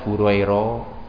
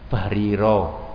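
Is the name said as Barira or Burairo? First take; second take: Burairo; Barira. First: The name is said as Burairo. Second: The name is said as Barira. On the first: The speaker calls it wrong. "Jangan dibaca Burairo" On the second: The speaker calls it right. "Barira itu nama orang"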